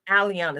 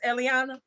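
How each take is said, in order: First: The name begins with a different, non-'Ellie' sound. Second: The name begins with an 'Ellie' sound. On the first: The speaker calls it right. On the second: The speaker calls it wrong.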